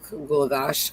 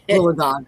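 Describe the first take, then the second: First: The name ends with an 'ash' sound. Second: The name ends with an 'og' sound. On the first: The speaker calls it wrong. "I always say it wrong" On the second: The speaker calls it right. "it's not an ash, it's an og"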